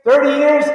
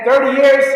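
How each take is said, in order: First: Thirty years said flatly, settling it; confirming the count to himself; firm confirmation. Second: Thirty years? rising like a guess; wondering aloud, years lifting up; unsure question. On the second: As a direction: ask Thirty years with an upward question lift. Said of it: "how many years, man?". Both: Real, not acted.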